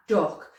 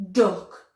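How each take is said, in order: First: Duck said again, lips still, tongue only; repeated D word. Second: Duck said with the tongue behind the teeth; clear D sound. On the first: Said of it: "It's all from my tongue". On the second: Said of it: "I'm not doing anything with my lips there". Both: Shown as a demonstration.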